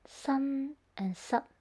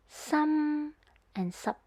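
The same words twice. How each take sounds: First: Sun held, sup cut short; N versus T ending. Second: Some held, sup cut short; M versus P ending. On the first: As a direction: clip the second word. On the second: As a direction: stop sup abruptly after some. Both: Shown as a demonstration. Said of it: "the word finishes the sound quicker".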